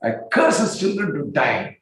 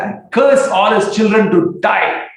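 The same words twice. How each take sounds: First: Said in the usual way. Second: High, loud, slow furious curse. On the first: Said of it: "said this openly". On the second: Retold or imitated. Nityananda cursing the family in a rage. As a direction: thunder out the curse.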